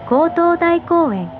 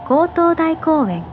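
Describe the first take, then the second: No difference in how they are said.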